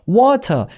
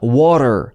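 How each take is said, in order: First: The middle t is a clear, crisp t. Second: The middle t is a soft, flapped sound. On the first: "이런 식으로 T 발음을 해도 좋으나 못한 영국 발음" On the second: "미국 발음에서는 이 T 발음을 잘 안 살려요"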